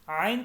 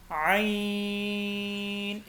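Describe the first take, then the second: First: आइन as open aa then een, no throat sound; common mispronunciation. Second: आइन from the throat, gliding into a very long level ee; short a, sustained ee in आइन; correctly lengthened. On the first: Teacher mimics the usual mistake, आइन with open aa. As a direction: split आइन into long aa and een. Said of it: "आइन गलत है". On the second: Teacher corrects the mistake, throaty आइन with long ee. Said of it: "तीन से पाँच अलिफ के बराबर लंबा करना". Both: Shown as a demonstration.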